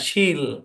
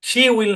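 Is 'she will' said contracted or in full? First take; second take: contracted; full. First: It is said as one contracted syllable. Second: It is said as two full words. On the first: The speaker calls it right. "উচ্চারণ হচ্ছে শিল" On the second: The speaker calls it wrong. "শি উইল না"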